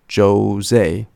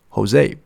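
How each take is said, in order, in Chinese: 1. 这个名字用英语的发音来读。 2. 这个名字用西班牙语的发音来读。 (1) "不要念成Jose" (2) "是Jose"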